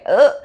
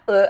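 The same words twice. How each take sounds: First: It sounds flustered and shy, not disgusted. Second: It sounds disgusted and grossed out.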